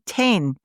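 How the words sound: The vowel sounds like the e in 'ten'. This is how Tasmanians say it. "they say ten, ten more in, in Tasmania"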